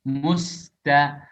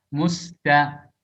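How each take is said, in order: Both takes have the same delivery.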